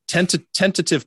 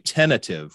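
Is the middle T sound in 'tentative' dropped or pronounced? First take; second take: pronounced; dropped. First: The middle T sound is clearly pronounced. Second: The middle T sound is dropped. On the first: The speaker calls it right. "which is the right way to say it" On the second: The speaker calls it wrong. "which you get rid of that T"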